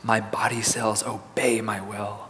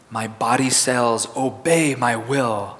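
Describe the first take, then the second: First: It is said in a quiet, soft voice. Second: It is said in an ordinary speaking voice. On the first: "let's say in a soft voice" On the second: "Now in a regular speaking voice"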